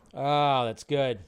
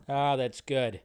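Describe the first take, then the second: No difference in how they are said.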